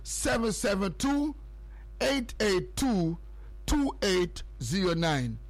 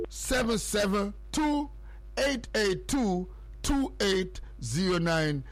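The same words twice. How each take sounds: The two takes are said the same way.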